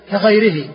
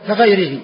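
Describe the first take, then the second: No difference in how they are said.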